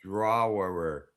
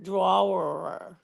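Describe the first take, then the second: First: Drawerer drawn out like a Mainer; Maine pronunciation. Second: Drawerer said slow with a long rising r; Maine pronunciation. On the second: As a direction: drawerer stretched out Maine style. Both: Shown as a demonstration. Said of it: "you have to say it properly".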